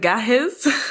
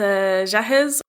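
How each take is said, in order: First: The word begins with a hard g sound. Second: The word begins with a soft j sound. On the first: The speaker calls it right. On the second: The speaker calls it wrong.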